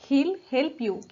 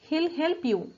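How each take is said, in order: First: He will is contracted into one syllable. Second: He will is contracted into one syllable.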